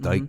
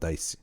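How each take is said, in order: First: The word ends with a k sound. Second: The word ends with an s sound. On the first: "Some I pronounce dike" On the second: "some I pronounce dice"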